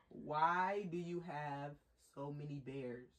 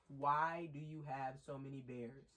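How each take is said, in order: First: It is said slowly. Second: It is said at normal speed.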